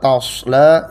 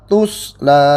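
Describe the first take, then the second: First: The first syllable has the vowel 'a'. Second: The first syllable has the vowel 'u'. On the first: "Yang pertama dibaca biasa tasla" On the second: "dibaca atanya ini di dhamma"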